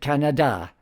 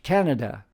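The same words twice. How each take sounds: First: The stress is on the last syllable. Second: The stress is on the first syllable. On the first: "accenting the last syllable" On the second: "English speakers put the accent on the first"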